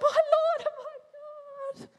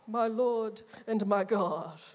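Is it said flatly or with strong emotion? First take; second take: strong emotion; flatly. First: It is said with strong, tearful emotion. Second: It is said flatly, without emotion.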